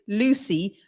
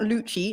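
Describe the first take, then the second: First: The name is said the English way. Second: The name is said the Italian way. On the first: The speaker calls it right. "It's Lucy" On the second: The speaker calls it wrong. "it's not Lucci, like the Italian"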